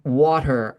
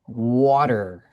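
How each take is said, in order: First: The R at the end is weak and soft. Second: The R at the end is strong and clear. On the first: The speaker calls it wrong. "saying something in the middle between British English and American English" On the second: The speaker calls it right. "It has to be a, even a stronger R"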